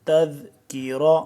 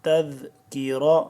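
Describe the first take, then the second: Both takes have the same delivery.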